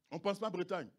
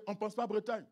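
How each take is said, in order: Both takes have the same delivery.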